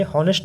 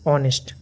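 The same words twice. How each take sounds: First: हॉनेस्ट said with a breathy h at the start; wrong h sound. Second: ऑनेस्ट starting straight on the vowel, no h; silent h. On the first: (हॉनेस्ट में ह की आवाज़ के साथ, गलत उच्चारण) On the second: (ऑनेस्ट बिना ह की आवाज़ के, सही उच्चारण) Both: Shown as a demonstration. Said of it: "इसको ऑनेस्ट पढ़ते हैं".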